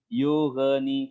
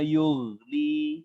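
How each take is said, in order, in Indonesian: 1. Bunyi gh ada pantulan suara. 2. Bunyi gh mengalir tanpa pantulan suara. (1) "keliru ya" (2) "dialirkan saja"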